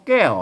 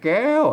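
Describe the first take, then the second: First: The word carries the ordinary tho tone. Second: The word carries the tri tone. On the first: "ใส่ไม่โทไว้แก้วนะ...เสียงโทปกตินะ" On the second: "ใส่ไม่ตีอ่ะเสียงตีเห็นไหม"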